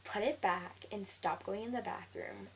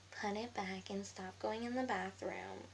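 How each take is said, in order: First: Slow, measured order; retold scolding. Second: Slow, drawn-out copycat voice; mocking mimicry. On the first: Classmate ordering her out of the bathroom, slow retold scolding. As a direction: retell her order slowly and firmly. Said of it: "she goes". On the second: Girl mimicking her classmate's order, slow mocking singsong. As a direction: parrot the order back in a put-on voice. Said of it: "So I mimicked her".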